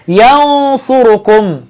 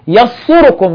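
First: The n is hidden as a light nasal sound. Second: The n is dropped and merged away completely. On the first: The speaker calls it right. "بعمل إخفاء" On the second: The speaker calls it wrong. "ولا بقول يصركم"

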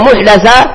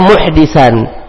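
First: The vowel after the d sound is a. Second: The vowel after the d sound is i. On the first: It refers to a religious innovation itself. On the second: It refers to a person who commits wrongdoing.

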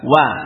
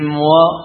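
First: The w is light and thin, with an open vowel. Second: The w is heavy and thick, with a darkened vowel. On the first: The speaker calls it right. "Maka infitah buka" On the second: The speaker calls it wrong. "Bagaimana tafkhimnya? Keseret kepada wad"

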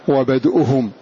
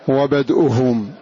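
No difference in how they are said.

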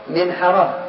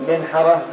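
No difference in how they are said.

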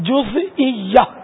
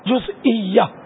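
No difference in how they are said.

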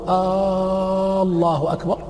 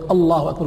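First: The opening vowel of the first word is lengthened. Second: The opening vowel of the first word is short. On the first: It turns the phrase into a question. The speaker calls it wrong. "أن يمد الألف في الله الأولى" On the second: It is a plain statement. The speaker calls it right. "بدل يقول الله أكبر"

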